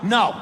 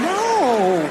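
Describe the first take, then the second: First: It is said as a firm refusal. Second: It is said as a coy, playful protest.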